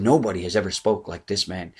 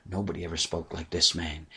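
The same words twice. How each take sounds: First: Said in the usual way. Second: Much softer, lower, awestruck; awed hush. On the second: Retold or imitated. Soldiers answer the Pharisees in an awed hush. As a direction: say it quietly as if still stunned.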